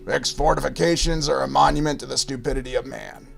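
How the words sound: The voice is low and gravelly. This is how the actor in the movie sounded. "his gravelly voice"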